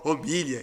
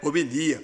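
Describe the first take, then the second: First: The word ends with a palatal 'lh' sound. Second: The word ends with separate 'li-a' syllables. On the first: The speaker calls it wrong. "o seu amigo pronunciou homilha" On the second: The speaker calls it right. "e é homilia"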